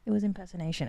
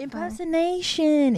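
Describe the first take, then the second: First: Said in the usual way. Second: "impersonation" said slowly and carefully, each syllable drawn out; careful slow pronunciation. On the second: Shown as a demonstration. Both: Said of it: "my impression of imperson".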